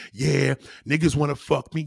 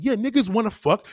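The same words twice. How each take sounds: First: Low, smug mimicry of a boast; low mocking quote; mock self-assured woman. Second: Said in the usual way. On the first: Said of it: "you think you got it going on".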